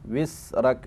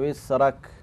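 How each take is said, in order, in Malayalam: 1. മധ്യ വ്യഞ്ജനം ചീറുന്ന s ആണ്. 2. മധ്യ വ്യഞ്ജനം മൃദുവായ മൂളുന്ന z ആണ്.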